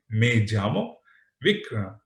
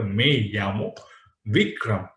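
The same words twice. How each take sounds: First: Llamo said as jamo, hard j; Me llamo with the dj sound; j pronunciation. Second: Me llamo with the Spain y; y pronunciation. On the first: Teacher giving the same example with a j. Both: Shown as a demonstration. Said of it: "There is a difference of pronunciation".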